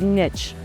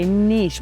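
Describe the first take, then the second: First: It uses the pronunciation from older days. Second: It uses the pronunciation younger people favor. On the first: It is the traditional way. "Where I come from, and back in the olden days, we said niche" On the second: It is said to sound cool. "I know all you younger people ... say niche because you think it's cool"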